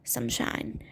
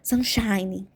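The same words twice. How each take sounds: First: It is said lazily, sleepy and relaxed. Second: It is said in a normal, alert way. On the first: The speaker calls it right. "com preguiça" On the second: The speaker calls it wrong. "tentar falar normal"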